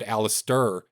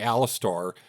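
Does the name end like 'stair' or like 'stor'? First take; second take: stair; stor. First: The name ends with a 'stair' sound. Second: The name ends with a 'stor' sound. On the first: The speaker calls it right. "I said it right this time" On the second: The speaker calls it wrong. "I didn't say Alistor"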